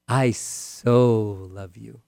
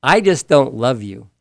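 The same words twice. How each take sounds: First: "I so love you" drawn out, "so" held long; slow and tender, leaning into "so"; a husband pouring feeling into "so"; stress on so, very slow. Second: Said in the usual way. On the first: Shown as a demonstration. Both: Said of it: "Now we're talking about getting our point across".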